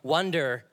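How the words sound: It is said with an American accent. "You've got to kind of say it like an American to say it how it's spelt"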